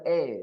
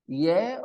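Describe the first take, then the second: First: The word begins directly with a vowel. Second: The word begins with a y sound. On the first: The speaker calls it wrong. "don't start with E" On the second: The speaker calls it right. "Y E A H?"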